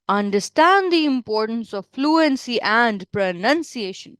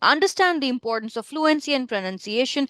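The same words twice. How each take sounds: First: It is said with heavily exaggerated intonation. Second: It is said in a higher, livelier pitch. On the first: The speaker calls it wrong. "you don't have to do intonations a lot ... don't do that" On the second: The speaker calls it right. "you have to make it a little high"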